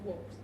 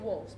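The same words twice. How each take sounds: First: The word is said with a v sound. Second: The word is said with an f sound. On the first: The speaker calls it right. "the correct spelling and pronunciation is" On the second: The speaker calls it wrong. "Most people try to say"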